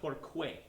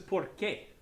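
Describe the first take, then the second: First: The qu is a kw sound. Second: The qu is a plain k sound. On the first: The speaker calls it wrong. "not porque" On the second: The speaker calls it right. "that says porque"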